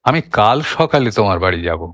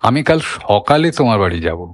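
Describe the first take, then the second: First: The stress falls on the word কাল. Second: The stress falls on the word সকালে. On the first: "ঝোঁকটা সরে এলো আমি থেকে কালে" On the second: "ঝোঁকটা আর একটু সরিয়ে দেয়া হয়"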